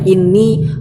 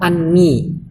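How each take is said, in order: First: The word begins with an 'i' vowel. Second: The word begins with an 'a' vowel. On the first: It starts a new sentence. "boleh kasroh" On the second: It works as the object of the verb. "boleh fathah"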